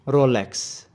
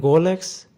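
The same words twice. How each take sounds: First: "Rolex" with a clear English R, falling at the end; English pronunciation. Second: "Rolex" with a throaty French R, rising at the end; Swiss French pronunciation. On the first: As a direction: say "Rolex" the English way for learners to repeat. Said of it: "with a typical English pronunciation". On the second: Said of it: "with a Swiss French pronunciation". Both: Shown as a demonstration.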